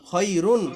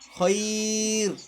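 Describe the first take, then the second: First: The word ends with an added '-un' sound. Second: The word ends on a bare 'r' consonant. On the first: The reader continues without stopping. "দুই পেশ রুন খই রুন" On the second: The reader stops on this word. "আমরা যখন থামবো তখন কি হবে খইর"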